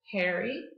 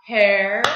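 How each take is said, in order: First: Said in the usual way. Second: "Hairy" in two loud, detached beats; clapped-out syllables. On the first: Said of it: "say it". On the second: Shown as a demonstration. Teacher claps the word out with pupils, syllable by syllable. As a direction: say "Hairy" as hair, pause, E. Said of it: "Let's clap it out".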